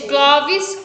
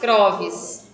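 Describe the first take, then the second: First: The second sound is an L. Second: The second sound is an R. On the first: "Em vez de Clóvis" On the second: "Muitas vezes troca-se o L pelo R"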